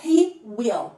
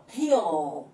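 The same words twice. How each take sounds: First: "He will" as two separate words; full form. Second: "he'll" as one lengthened, lower syllable; contracted form. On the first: Teacher showing the uncontracted form, "He will" in two clear words. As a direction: keep "will" whole after "He". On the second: Teacher showing how he will contracts, "he'll" in one low syllable. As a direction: fold will into a final dark l in "he'll". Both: Shown as a demonstration. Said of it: "como que a gente contrai".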